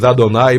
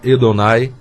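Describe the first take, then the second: First: The first vowel is an A sound. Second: The first vowel is an E sound. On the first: This is how Portuguese speakers say it. "que nós chamamos Adonai" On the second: This is how it is said in Hebrew. "no hebraico o primeiro A tem som de E"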